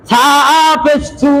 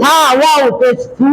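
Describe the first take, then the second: First: "সা পেশ সু" with the final "সু" kept short; short vowel. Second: "সা ওয়াও পেশ সু" with the final "সু" held long; stretched vowel. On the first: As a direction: end "সা পেশ সু" on a quick, unstretched "সু". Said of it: "পেশের উচ্চারণ তাড়াতাড়ি করতে হবে". ("সা পেশ সু"-র শেষের "সু" টান ছাড়া) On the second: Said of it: "এটা টান হবে তো". ("সা ওয়াও পেশ সু"-র শেষের "সু" লম্বা টেনে) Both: Shown as a demonstration.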